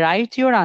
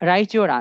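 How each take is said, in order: First: A plain 't' is heard before 'your'. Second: The 't' and 'y' merge into 'ch'.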